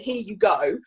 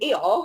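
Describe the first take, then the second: First: The phrase is said fully and carefully. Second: The phrase is squashed in a South London accent. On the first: "instead of saying" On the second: "because I'm from South London"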